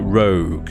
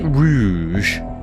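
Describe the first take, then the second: First: The name ends in a hard 'g' sound. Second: The name ends in a soft French 'zh' sound. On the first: "I've been calling him Rogue" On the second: "so maybe it's Rouge, and it's all Le Français"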